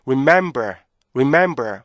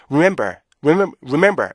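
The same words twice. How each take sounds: First: "remember" slower, with a long middle beat; short "re", stretched "mem", falling "ber" in "remember"; correct REMEMBER rhythm. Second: "remember" quick and squashed, rhythm lost; no pause inside "remember"; rushed wrong REMEMBER. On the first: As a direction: give "remember" room in the middle. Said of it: "완전히 다르죠". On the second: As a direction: mimic a learner's compressed "remember". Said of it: "이거 하고요". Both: Shown as a demonstration.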